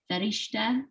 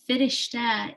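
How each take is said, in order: First: It is said the way Indian speakers say it. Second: It is said the way Dari speakers say it. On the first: "in the Indian culture, it's Farishta" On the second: "Firishta in Dari"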